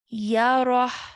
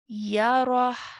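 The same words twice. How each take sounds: Both takes have the same delivery.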